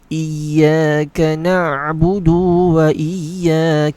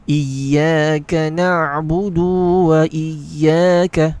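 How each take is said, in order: No difference in how they are said.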